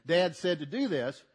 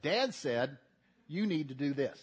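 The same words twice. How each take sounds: First: "Dad said" pushed out louder; stress on Dad said. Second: "Dad said" leaned on with weight; stress on Dad said. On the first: Boy relaying father's order to brother, louder stress on "Dad said". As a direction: land "Dad said" as the trump card. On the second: Younger brother invoking father to older brother, stress on "Dad said". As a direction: make "Dad said" carry the authority. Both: Retold or imitated. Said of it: "put it on that parenthetical statement".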